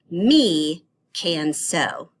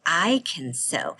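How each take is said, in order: First: Slow, drawn-out wrong version; wrong pronoun demo. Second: Said in the usual way. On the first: Shown as a demonstration. Teacher reading the wrong pronoun to kids, slow and deliberate. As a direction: say it wrong on purpose, slowly. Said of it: "using the wrong ones and see if you can hear the difference". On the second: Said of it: "We would say".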